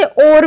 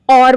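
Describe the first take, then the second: First: और said with a narrow o sound, the worse way; even more wrong pronunciation. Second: और said as everyday "or" with a plain o; wrong colloquial pronunciation. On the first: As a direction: say और in the most wrong way. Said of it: "वह तो और भी ज्यादा गलत है". (और और भी गलत उच्चारण) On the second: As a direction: say और the casual wrong way, like "or". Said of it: "हम बोलचाल की भाषा में उसे". (और गलत बोलचाल वाला उच्चारण) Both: Shown as a demonstration.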